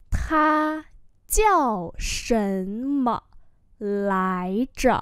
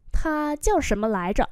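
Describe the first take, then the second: First: Very slow, syllable by syllable; slow-motion pronunciation model; slow demonstration. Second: Said in the usual way. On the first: Shown as a demonstration. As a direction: stretch each tone for learners. Teacher repeats slowly for learners.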